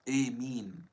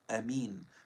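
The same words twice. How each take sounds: First: The first vowel is fronted toward an e. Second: The first vowel is short and open. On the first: "with Imala, in which the alif is pronounced like the Ya" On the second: "with the alif being short"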